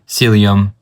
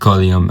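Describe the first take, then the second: First: The word starts with a 'sil' sound. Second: The word starts with a 'kol' sound. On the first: The speaker calls it right. "it's called um, cilium" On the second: The speaker calls it wrong. "and not uh, collium as I uh, used to pronounce it"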